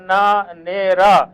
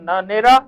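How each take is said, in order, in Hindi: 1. नाम धीरे-धीरे, हिस्सों में बाँटकर बोला गया है। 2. नाम एक ही शब्द की तरह जल्दी बोला गया है।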